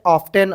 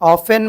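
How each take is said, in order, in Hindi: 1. यह शब्द साफ़ t की आवाज़ के साथ बोला जाता है। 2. यह शब्द बिना t की आवाज़ के बोला जाता है। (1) "बहुत सारे बच्चे प्रोनाउंसिएशन करते वक्त में ऑफेन को भी क्या पढ़ते हैं?" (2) "टी आ गया"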